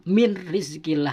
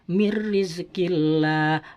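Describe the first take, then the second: First: The n sound is clearly pronounced before r. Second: The n merges into a doubled r sound. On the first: The speaker calls it wrong. "tidak boleh dibaca min rizqillah" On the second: The speaker calls it right. "seakan-akan nun mati itu masuk ke ro"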